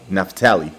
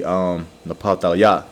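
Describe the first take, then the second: First: Said in the usual way. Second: Naphtaliah said slowly as naf-tah-lyah; Hebrew pronunciation. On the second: Shown as a demonstration. Teacher correcting the English name to Hebrew Naphtaliah, slowly. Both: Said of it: "Or should I say".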